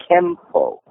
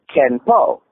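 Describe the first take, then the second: First: "Kempo" with N turned into M; slow "Kempo", lips closing on the M; M sound. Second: "Ken Po" with an N ending the first syllable; two separate syllables, "Ken" then "Po"; N sound. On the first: Teacher showing the Japanese pronunciation, spoken with an M sound. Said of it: "changed the sound of the N from Ken into an M". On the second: Teacher building the term from fist and law, pronounced with N. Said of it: "the sound of the N from Ken". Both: Shown as a demonstration.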